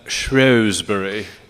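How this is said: It is said with a British pronunciation.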